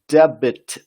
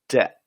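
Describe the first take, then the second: First: The B sound is pronounced in the word. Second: The B sound is silent in the word. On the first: The speaker calls it wrong. "you don't pronounce it debit" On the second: The speaker calls it right. "The B is silent, so you say debt"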